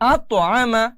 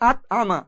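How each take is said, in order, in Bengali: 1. t ধ্বনিটি প্রতিধ্বনিত একটা ঝাঁকি দিয়ে ছাড়া হয়। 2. t ধ্বনিটি ছোট করে কেটে দেওয়া হয়, কোনো ঝাঁকি ছাড়া। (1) "এখানে কলকলা করে পড়তে হবে" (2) "অনেকে এগুলো উচ্চারণ করে কিভাবে"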